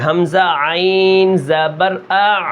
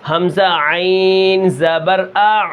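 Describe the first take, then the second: First: Slow حمزہ عین زبر آ pressing hard on the ع, no final rise; forced ع. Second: Slow حمزہ عین زبر آ pressing hard on the ع; forced ع. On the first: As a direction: repeat it with a firm ع. (عین پر زور دے کر دوبارہ) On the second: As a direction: push the ع out with force. (عین پر زور لگا کر) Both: Shown as a demonstration. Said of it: "زور لگا کے پڑھنا ہے".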